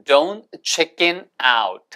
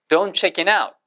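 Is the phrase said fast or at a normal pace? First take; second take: normal; fast. First: The phrase is said at a normal, careful pace. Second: The phrase is said quickly with words run together.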